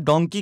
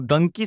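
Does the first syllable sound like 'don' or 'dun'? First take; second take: don; dun. First: The first syllable has an 'o' vowel, 'don'. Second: The first syllable has a 'u' vowel, 'dun'. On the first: This is the original pronunciation of the word. "Originally डंकी नहीं बल्कि डोंकी बोला जाता है" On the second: This is how people from Punjab say it. "Punjab के लोग खास करके डोंकी को डंकी शब्द से उच्चारण करते हैं"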